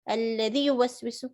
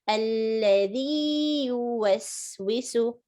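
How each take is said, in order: First: The vowel before yuwaswisu is short. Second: The vowel before yuwaswisu is prolonged. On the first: The speaker calls it wrong. "Don't say" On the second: The speaker calls it right. "prolong the ya"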